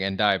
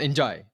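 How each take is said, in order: First: The name has a plain 'd' sound. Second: The name has a 'j' sound. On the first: The speaker calls it wrong. "I slipped into the mistake of saying Endai" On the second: The speaker calls it right. "he says very enthusiastically Iliman Enjai with that speed"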